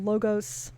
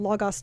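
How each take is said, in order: First: It is said with an English pronunciation. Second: It is said with a Greek pronunciation. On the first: The speaker calls it wrong. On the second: The speaker calls it right.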